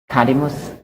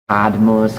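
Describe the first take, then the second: First: A short vowel separates the d and m. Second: The d and m meet with no vowel. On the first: The speaker calls it right. "the smallest, most unassuming vowel is going to slip in" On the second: The speaker calls it wrong. "That sounds German. It doesn't sound Latin at all"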